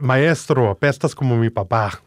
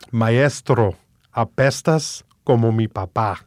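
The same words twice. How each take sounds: First: The phrase is said at a normal, quicker pace. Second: The phrase is said at a slower pace.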